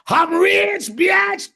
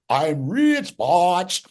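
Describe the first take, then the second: First: The last word is said like 'bitch'. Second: The last word is said like 'botch'. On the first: The speaker calls it right. "you got to say it like this" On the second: The speaker calls it wrong. "he butchered it"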